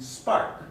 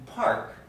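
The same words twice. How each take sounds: First: SPARK with no puff after the P; P in spark released without breath; unaspirated P. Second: PARK with a burst of air after the P; aspirated P. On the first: Teacher contrasting two words, unaspirated spark. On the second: Teacher contrasting two words, aspirated park. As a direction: puff out the P in park. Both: Shown as a demonstration. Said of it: "So a contrast between park".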